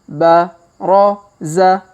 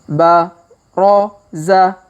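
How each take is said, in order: The two takes are said the same way.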